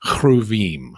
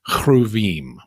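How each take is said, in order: First: It is said with a Hebrew pronunciation. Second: The same.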